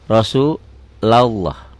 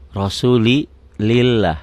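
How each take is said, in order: First: "Rasulullah" very slow, rounded "lo" like "Rosuloh"; thick Rasulullah. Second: "Rasulillah" slowly, with a thin light "lil". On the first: Teacher showing thick reading to parents. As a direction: stretch "Rasulullah" into a heavy "lo". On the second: Teacher contrasting thin reading for the class. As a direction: draw "Rasulillah" out, thin and bright. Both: Shown as a demonstration. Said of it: "tipis kan?".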